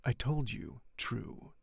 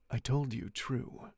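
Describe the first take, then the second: First: Slow cold deliberate reply; cold, slower. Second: Slow cold reply; the Count answers coldly, taking his time. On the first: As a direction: lay each word down coldly and slowly. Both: Acted. The Count answering Franz, coldly and slowly. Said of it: "he replied coldly".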